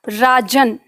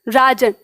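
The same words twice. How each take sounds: First: The final n is fully released. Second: The final n is cut short. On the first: This is the Hindi way of saying it. "उसमें हल नहीं लगेगा राजन, क्योंकि हम न का पूर्ण उच्चारण कर रहे हैं" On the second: This is the Sanskrit way of saying it. "जब इसमें हल लगाए ना तो राज, राजन, और न जो है वो हमारे मुंह में ही रुक जाएगा"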